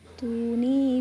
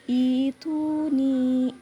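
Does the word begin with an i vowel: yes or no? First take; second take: no; yes. First: It is joined to the previous word without i. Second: It starts fresh with an i vowel. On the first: The reading continues from the word before. "Itu jika diwasol atau diteruskan" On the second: The reading starts at this word. "begitu permulaannya"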